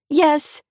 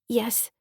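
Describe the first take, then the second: First: It is shouted loudly. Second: It is said quietly.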